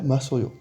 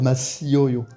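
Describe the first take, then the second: First: The i and o vowels merge into yo. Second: The i and o vowels are pronounced separately. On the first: The speaker calls it right. "On va faire Masoyo" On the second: The speaker calls it wrong. "On peut pas dire Masioyo"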